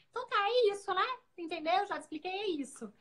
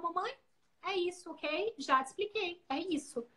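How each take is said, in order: First: Her own habit. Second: Imitating her son. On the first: Retold or imitated. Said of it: "pra mim era tão automático falar isso". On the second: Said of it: "viravam no final".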